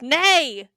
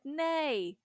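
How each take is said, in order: First: The word is said loudly and forcefully. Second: The word is said softly and gently.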